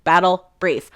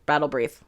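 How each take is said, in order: First: "Battle Brief" as two separated words; careful enunciation. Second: Said in the usual way. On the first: Real, not acted. Speaker retries a tricky term, "Battle Brief" carefully enunciated. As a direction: say "Battle", pause, then "Brief" distinctly. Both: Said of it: "those words are so hard for me".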